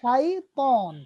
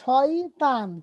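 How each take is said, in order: First: It is said the Arabic way, shaitan. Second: It is said the everyday Bengali way, shoytan. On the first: The speaker calls it right. "কিন্তু হবে শাইতন" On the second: The speaker calls it wrong. "আমরা বলছি শয়তান"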